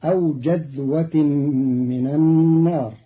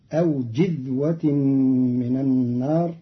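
First: جذوة as jadhwa, open first vowel; a after the jim. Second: جذوة as jidhwa, with i after j; kasra on the jim. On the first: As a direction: say jadh in جذوة. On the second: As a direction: say jidh in جذوة. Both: Shown as a demonstration. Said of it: "بكسر الجيم".

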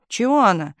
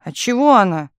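First: Higher-pitched aggrieved protest; crying out. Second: Higher, louder protest; desperate cry. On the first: Telegraph operator still protesting to chief, crying out. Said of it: "кричала она". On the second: Telegraph operator protesting to chief, desperate cry. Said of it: "крикнула в отчаянии". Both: A narrator's reading.

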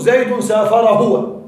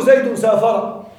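First: Slow example with pronoun. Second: Slow example. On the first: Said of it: "ويجوز". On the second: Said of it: "تقول". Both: Shown as a demonstration.

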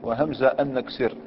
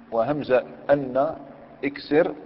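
First: Said in the usual way. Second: Slow drawn out. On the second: Shown as a demonstration. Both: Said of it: "لو كان قال لك".

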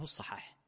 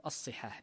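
First: "الصحاح" said aṣ-Ṣaḥāḥ, with an a after the ṣād; fatha on the ṣād. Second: "الصحاح" said aṣ-Ṣiḥāḥ, with an i after the ṣād; kasra on the ṣād. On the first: Teacher gives the corrected book title, "الصحاح" with fatha: aṣ-Ṣaḥāḥ. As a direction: say "الصحاح" with a short a in its first syllable, ṣa. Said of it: "الصواب فيه أنه بفتحها". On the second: Teacher quotes the popular book title, "الصحاح" with kasra: aṣ-Ṣiḥāḥ. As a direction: say "الصحاح" with a short i in its first syllable, ṣi. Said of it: "بكسر الصاد". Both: Shown as a demonstration.

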